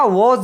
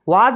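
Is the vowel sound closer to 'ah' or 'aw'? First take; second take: aw; ah. First: The vowel is a rounded 'aw' sound. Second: The vowel is an open 'ah' sound. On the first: The speaker calls it right. "वॉज होता है" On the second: The speaker calls it wrong. "वाज नहीं होता"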